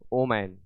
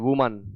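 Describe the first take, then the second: First: The word begins with an 'o' sound. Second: The word begins with a 'w' sound. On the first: The speaker calls it wrong. "इसको लोग पढ़ते हैं ओमैन" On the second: The speaker calls it right. "इसे आप वुमन पढ़ें"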